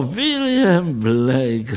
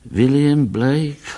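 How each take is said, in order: First: "William Blake" drawn out slowly, relishing each syllable; slow, admiring "William Blake"; savoring the name. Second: Said in the usual way. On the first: Acted. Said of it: "řekl doktor Pingicer". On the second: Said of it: "řekl Tracy".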